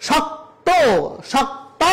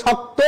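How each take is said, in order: First: শক্ত with no final o, higher; wrong pronunciation. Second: শক্ত ending in a clear o sound; correct pronunciation. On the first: Teacher shows students the wrong শক্ত. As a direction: clip শক্ত short as the error. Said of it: "বলা যাবে না". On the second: Teacher gives students the right শক্ত. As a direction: end শক্ত on a full o. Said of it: "বলতে হবে শক্ত". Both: Shown as a demonstration.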